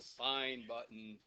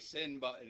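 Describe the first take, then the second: First: The first word has a long i vowel. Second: The first word has a short i vowel. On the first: The speaker calls it right. "it's the sign button" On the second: The speaker calls it wrong. "It's not a sin button"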